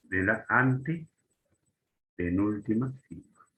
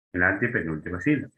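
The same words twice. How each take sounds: First: Antepenúltima stretched out slowly in separate chunks; slow, deliberate. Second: Antepenúltima run together quickly in one go; brisk repeat. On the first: Teacher naming where esdrújulas take the accent, slow and deliberate. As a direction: draw out la, then pause inside antepenúltima. Teacher spells out the key term. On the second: Teacher repeating where the accent falls, brisk and joined up. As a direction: say antepenúltima sílaba briskly, without breaks. Repeats the term at normal speed. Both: Shown as a demonstration.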